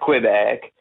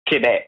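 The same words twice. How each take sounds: First: It is pronounced with an English-style sound. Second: It is pronounced with a French-style sound. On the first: It follows the colonial English habit. The speaker calls it wrong. "The way you pronounce Quebec is absolutely wrong. It's not Quebec" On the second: It follows the local French usage. The speaker calls it right. "It's Quebec"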